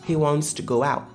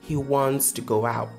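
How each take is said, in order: Both takes have the same delivery.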